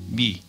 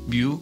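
First: The vowel is pronounced as i. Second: The vowel is pronounced as yu. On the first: This is how modern Greek says the letter. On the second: This is the usual name of the letter.

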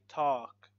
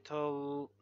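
First: The L sound is left out of the word. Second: The L sound is pronounced in the word. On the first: The speaker calls it right. "We say talk, we remove L" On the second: The speaker calls it wrong. "So we don't say tol"

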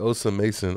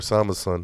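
First: The name breaks after the second syllable. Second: The name breaks after the third syllable. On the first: The speaker calls it wrong. "Because I said Osa Mason, and the dude next to me, bro, watch your mom say it right" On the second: The speaker calls it right. "It's Osama Son"

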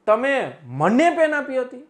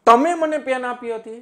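First: The stress falls on મને. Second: The stress falls on તમે. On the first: It was given to the speaker rather than someone else. "હું ભાર આપી દઉં મને ઉપર" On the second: It was the listener rather than someone else. "તમે ઉપર હું ભાર બતાવું"

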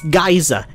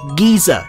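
First: The first vowel sounds like 'eye'. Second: The first vowel sounds like 'ee'. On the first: The speaker calls it right. "it's geyser" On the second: The speaker calls it wrong. "we don't say geezer"

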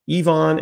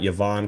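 First: The Y is said as 'ee'. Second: The Y is not said as 'ee'. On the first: The speaker calls it right. "So the Y is pronounced like an E" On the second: The speaker calls it wrong. "It is not Yvan Kemajou"

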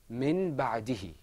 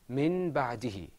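Both takes have the same delivery.

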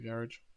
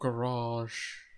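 First: It is said in a non-American accent. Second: It is said in an American accent.

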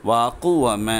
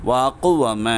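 The two takes are said the same way.

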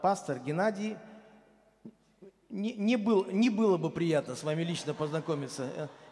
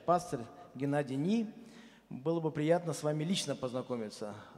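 First: The pause comes before the word 'ne'. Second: The pause comes after the word 'Ni'. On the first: It would not be pleasant to meet in person. The speaker calls it wrong. "А жена его прочитала так" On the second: Ni is the addressee's surname, so meeting would be pleasant. The speaker calls it right. "И пишет вначале"

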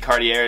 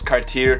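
First: The name is pronounced in a plain English way. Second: The name is pronounced in a French way. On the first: The speaker calls it wrong. "it's not actually Cartier" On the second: The speaker calls it right. "it's Cartier. Cartier, like, it's some super French bouginess"

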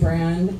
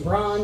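First: The name is said the speaker's usual way. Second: The name is said the Welsh way. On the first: "I say Bran" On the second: "If you're Welsh, you'd say Bron"

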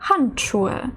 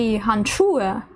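First: The stress falls on the first syllable. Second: The stress falls on a later syllable. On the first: The speaker calls it right. "Перший наголошений так само" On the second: The speaker calls it wrong. "Не «handschuhe»"

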